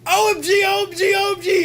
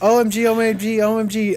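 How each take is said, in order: First: It is said loudly and excitedly, like all caps. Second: It is said calmly, without much energy.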